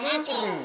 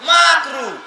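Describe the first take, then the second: First: The first vowel sounds like 'u'. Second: The first vowel sounds like 'a'. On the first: The speaker calls it wrong. "মানে ঠিক করে শব্দ বলে না" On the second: The speaker calls it right. "শব্দ হচ্ছে মাকরু"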